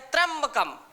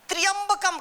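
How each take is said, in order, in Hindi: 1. शुरुआती 'tr' एक कसा हुआ आधा-व्यंजन संयोग है। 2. शुरुआती 'tr' के बीच एक पूरा स्वर आता है। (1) "कहे त्र्यंबकम। जब यहां त्र आधा जो है" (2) "कहीं कहीं उच्चारण में लोग गड़बड़ी करते हैं, त्र्यंबकम कहीं बोलते हैं"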